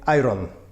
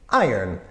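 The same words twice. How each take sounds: First: The word sounds like two clear syllables. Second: The word sounds like one blurred syllable. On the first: "Polish people very often say iron" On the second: "it sounds like one kind of messed up syllable"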